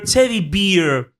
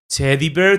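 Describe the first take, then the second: First: The last word has an 'ear' vowel. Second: The last word has an 'air' vowel. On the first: The speaker calls it wrong. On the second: The speaker calls it right.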